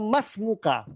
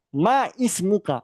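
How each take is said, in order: First: The two words run together without a break. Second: The two words are said separately, with a break. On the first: The speaker calls it right. "yang benar adalah mas muka. Jadi di, digabungkan bacanya" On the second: The speaker calls it wrong. "cara baca yang gak benar adalah ma ismuka"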